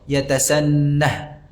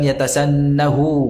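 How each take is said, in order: First: The word ends on a bare h sound. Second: The word ends with an added u vowel. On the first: The speaker calls it right. "dibaca dalam keadaan sukun" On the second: The speaker calls it wrong. "bukan yatasannahu"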